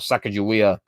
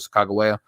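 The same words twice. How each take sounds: First: It is said in the anglicized English way. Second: It is said in the native, unanglicized way. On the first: "is an anglicization" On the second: "that is actually the authentic pronunciation"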